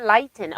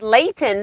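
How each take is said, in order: First: "Layton" mispronounced LIGHT-un; "Layton" with first syllable rhyming with "lie"; mistaken pronunciation. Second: "Layton" said LAY-tun; "Layton" with first syllable rhyming with "day"; corrected pronunciation. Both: Shown as a demonstration. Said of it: "she says it's Layton, not Layton".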